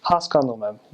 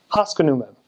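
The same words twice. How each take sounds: First: Haskanumem with a full "ah" in the second syllable; even syllables: "has-kahn-oo-mem"; good Armenian accent. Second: Haskanumem with the second syllable skipped over as "uh"; bad American accent. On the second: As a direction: bounce over the second vowel: "HAS-kuh-noo-mem". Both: Shown as a demonstration. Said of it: "Do you kinda hear the difference?".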